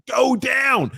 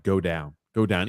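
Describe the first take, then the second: First: High, loud frantic plea; yelling at the TV. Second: Said in the usual way. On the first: Retold or imitated. Fan yelling at the screen to go down. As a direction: beg him to go down.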